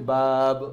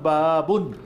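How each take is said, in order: First: The word ends on a bare consonant. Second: The word ends with an added -un. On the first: "থামবেন বাব" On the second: "যেরকম বাবুন"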